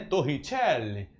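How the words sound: The name is said with an Italian accent.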